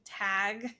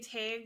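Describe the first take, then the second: First: Tag is said in a general American accent. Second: Tag is said in a Wisconsin accent.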